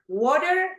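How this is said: It is said in an American accent. "American English"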